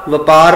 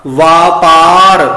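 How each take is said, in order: First: ਵਪਾਰ with quick va, va-paar; short first vowel. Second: ਵਾਪਾਰ slow and loud, vaa-paar; long first vowel. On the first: Teacher warns against this reading, ਵਪਾਰ begun short. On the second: Teacher models the right reading, ਵਾਪਾਰ with long aa. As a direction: stretch both aa vowels in ਵਾਪਾਰ. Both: Shown as a demonstration. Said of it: "ਵਪਾਰ ਪਾਠ ਨਹੀਂ ਕਰਨਾ".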